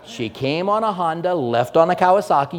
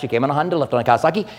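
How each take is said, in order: First: The phrase is spoken at a normal, clear pace. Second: The phrase is spoken very fast, running together. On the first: "you heard what I said there, right?" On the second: "You say that really fast"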